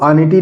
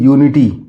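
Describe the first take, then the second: First: It begins with an 'uh' sound. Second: It begins with a 'yoo' sound. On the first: The speaker calls it wrong. "इसको अनिटी नहीं पढ़ेंगे" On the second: The speaker calls it right. "इसको पढ़ेंगे यूनिटी"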